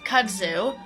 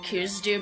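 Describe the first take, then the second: First: The d sound comes before the z sound. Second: The z sound comes before the d sound. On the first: The speaker calls it right. "but kudzu" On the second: The speaker calls it wrong. "I have been pronouncing incorrectly"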